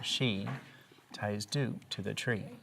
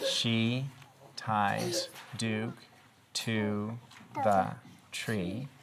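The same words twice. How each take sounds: First: The sentence is read in a smooth, rhythmic way. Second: The sentence is read in a choppy, uneven way. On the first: The speaker calls it right. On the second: The speaker calls it wrong.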